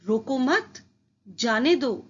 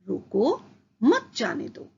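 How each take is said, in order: First: There is a pause after the second word. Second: There is a pause after the first word. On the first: The listener is told to let the person go. "रोको मत के बाद अल्प विराम" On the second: The listener is told to stop the person. "रोको के बाद अल्प विराम"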